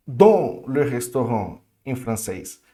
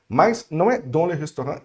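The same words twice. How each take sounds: First: French phrase said slowly; slow mock-French question; student's French. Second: "dans le restaurant" marked as wrong; French "dans le restaurant" flagged as the error. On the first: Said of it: "por que que eu falo no restaurante". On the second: Shown as a demonstration. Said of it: "isso é errado".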